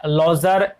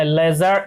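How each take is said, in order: First: लॉजर said with a rounded "lo" vowel, like lodger; mispronounced ledger. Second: लेजर said with a clear "le" vowel, like ledger; corrected ledger. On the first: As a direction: slip into लॉजर, open rounded first vowel. (लॉजर, गलत उच्चारण में) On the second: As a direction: fix it to लेजर, short front first vowel. (सुधारा हुआ उच्चारण: लेजर) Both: Shown as a demonstration. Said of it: "L ई, अ, लेजर".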